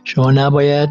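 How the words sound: The stress falls on the second word. "and then just I put this one the stress نباید"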